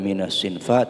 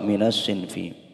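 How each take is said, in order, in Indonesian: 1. Kata ini tidak berakhir dengan vokal 'i'. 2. Kata ini berakhir dengan vokal 'i'. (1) "Tidak boleh" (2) "harus kasroh"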